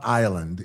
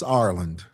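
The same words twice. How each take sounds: First: It sounds like the word island. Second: It is said with a clear r sound. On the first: The speaker calls it wrong. "They say island. It's not Ireland" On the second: The speaker calls it right. "it's Ireland"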